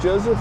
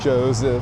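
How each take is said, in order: First: The middle consonant is a soft S sound. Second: The middle consonant is a buzzing Z sound.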